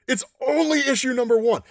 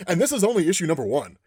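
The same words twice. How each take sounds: First: "only" lifted high and leaned on; stress on ONLY. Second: Said in the usual way. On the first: Real, not acted. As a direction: push the word "only" up with excitement.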